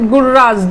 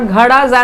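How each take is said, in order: First: The middle consonant is an r sound. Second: The middle consonant is a d sound. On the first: The speaker calls it wrong. "don't pronounce it Gurras, G U R R A H S" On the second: The speaker calls it right. "as we pronounce it in our very own Hindi"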